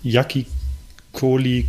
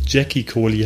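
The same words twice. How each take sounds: First: "Jackie" said German-style, as "Yakki"; "Jackie" beginning like German "ja", then "Kohli". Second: "Jackie" said English-style, as "Jacky"; "Jackie" as in the English first name. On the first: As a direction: start "Jackie Kohli" with a y sound. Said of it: "dass es Jackie Kohli heißt". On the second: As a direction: start "Jackie Kohli" with a dzh sound. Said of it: "ich könnte mir vorstellen". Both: Shown as a demonstration.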